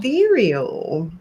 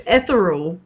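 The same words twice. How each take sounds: First: "Ethereal" said eh-THEER-ee-ul, drawn out; pronunciation demo. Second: "ethereal" said ETH-er-ul; odd pronunciation. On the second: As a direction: stress the first syllable of ethereal. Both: Shown as a demonstration. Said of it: "the same as ethereal".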